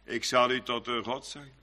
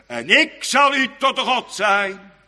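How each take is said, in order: First: Softer, lower, reverent murmur; hushed awe. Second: Louder, slow ringing proclamation; proclaiming. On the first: Preacher hushes God's words to the congregation, softer and lower. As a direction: breathe God's promise almost to yourself. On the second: Preacher proclaims God's promise to the church, loud and slow. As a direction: sound it out like it comes from heaven. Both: Acted.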